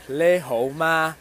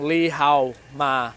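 First: The phrase starts with 'le' then 'ho'. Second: The phrase starts with 'li' then 'hao'. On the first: The speaker calls it right. "which is le ho ma" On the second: The speaker calls it wrong. "I was saying li hao ma, which is like a cross between Mandarin and Cantonese"

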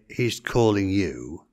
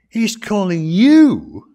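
First: It is said flatly, with no special emphasis. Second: It is said with surprised emphasis on 'you'. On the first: It simply reports that he is being called. "You can't get the inflection of the voice in the printed word" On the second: They cannot believe he, of all people, is called. "I think they say"

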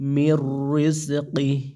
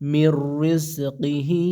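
First: The phrase ends on a bare h sound. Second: The phrase ends with an i vowel after h. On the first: The reciter stops at this point. "যদি অক্ফ করেন এখানে সেই ক্ষেত্রে" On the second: The reciter continues without stopping. "আর যদি অক্ফ না করেন"

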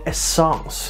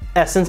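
First: The word is said in a fancy, suave way. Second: The word is said in a plain way.

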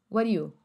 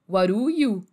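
First: The words blend into one heavily reduced chunk. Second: The words are linked but still mostly distinct. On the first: "Uma hora ele faz a conexão virar mais conectado ainda" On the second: "Então ficaria what do, que seria what to do"

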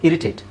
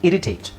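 The two takes are said the same way.

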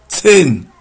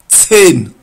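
Both takes have the same delivery.

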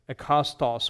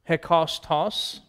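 First: The word begins directly with a vowel. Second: The word begins with an h sound. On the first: "you omit those rough breathing marks ... and just read it as" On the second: "there's a rough breathing there"

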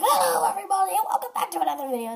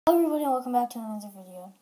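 First: It is said in a cheesy, showy host voice. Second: It is said quickly and casually.

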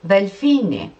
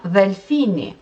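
Both takes have the same delivery.

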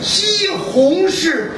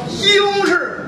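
First: Every syllable is said clearly. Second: Sounds are swallowed and slurred together.

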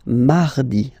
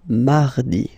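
Both takes have the same delivery.

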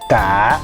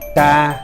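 First: The tone dips down then comes up. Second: The tone stays level at mid pitch. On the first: "giống cái dấu hỏi" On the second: "tiếng xá măn"

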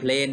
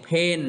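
First: An L sound follows the first consonant. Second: No L sound follows the first consonant. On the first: The speaker calls it wrong. "บ่แม่นเพลนเด้อ" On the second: The speaker calls it right. "ออกเสียงเพนเนาะ"

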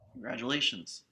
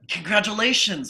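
First: It sounds grudging and disapproving. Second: It sounds warm and happy. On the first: The news is unwelcome. The speaker calls it wrong. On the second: The news is welcome. The speaker calls it right.

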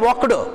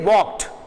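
First: The ending is an extra id syllable. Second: The ending is a single t sound. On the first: The speaker calls it wrong. "We don't say walked" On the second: The speaker calls it right. "We say walked"

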